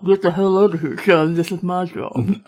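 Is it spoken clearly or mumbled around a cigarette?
mumbled. It is mumbled as if holding a cigarette.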